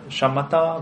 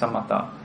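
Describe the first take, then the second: First: The term is said in its Sanskrit form. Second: The term is said in its Pali form. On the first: "one is Sanskrit" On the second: "one is Pali"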